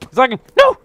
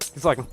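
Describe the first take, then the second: First: Rising frustration. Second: Said in the usual way. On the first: Real, not acted.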